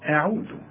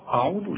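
First: The opening glottal stop sounds light and thin. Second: The opening glottal stop sounds heavy and thick. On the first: The speaker calls it right. "لا أعوذ، فهنرقق قوي الهمزة" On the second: The speaker calls it wrong. "مش عاوزين نبتدئ ونقول أعوذ"

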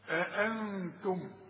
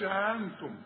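First: Both glottal stops are pronounced distinctly. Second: The two glottal stops run together. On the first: The speaker calls it right. "عندك همزتين اظهرهم" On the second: The speaker calls it wrong. "ما تقولش أأنتم"

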